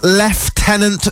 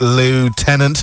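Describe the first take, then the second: First: The word is said the British way. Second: The word is said the American way. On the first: "It's pronounced Lieutenant. Since we are English" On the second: "the Americans pronounce it Lieutenant"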